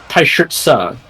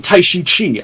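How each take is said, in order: First: The last syllable sounds like 'tse'. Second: The last syllable sounds like 'chi'. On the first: The speaker calls it right. "his name's actually pronounced Tai Shi Tse" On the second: The speaker calls it wrong. "they say oh Tai Shi Chi"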